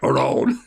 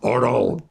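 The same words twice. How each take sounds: First: It is said in a growly pirate voice. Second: It is said in his plain voice.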